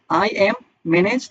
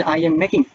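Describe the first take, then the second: First: I am manage dragged out very slowly; wrong form, drawn out. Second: Said in the usual way. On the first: Shown as a demonstration. Teacher slowly shows the wrong form. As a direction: stretch "I am manage" out word by word as the wrong version. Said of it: "নাকি managing". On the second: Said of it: "মেকের সাথে ING দিয়ে বলেন যে".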